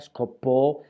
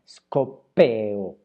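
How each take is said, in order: First: The verb ends in a single stressed vowel. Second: The verb ends in two separate vowels. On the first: This is the Attic form. "scopó es una pronunciación ática" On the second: This is the Ionic form. "si lo pronunciamos en jónico tenemos que disolver eh, el, el, la desinencia"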